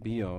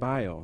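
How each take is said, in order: First: Bio is pronounced the Spanish way. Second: Bio is pronounced the English way. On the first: "not bio, like a lot of people say" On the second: "it's bio in English"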